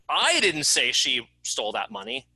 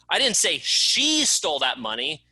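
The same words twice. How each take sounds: First: The word "I" is stressed. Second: The word "she" is stressed. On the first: Someone else said it. "It wasn't me that said it, it was someone else" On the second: Someone else stole it. "It wasn't her, it was someone else that stole it"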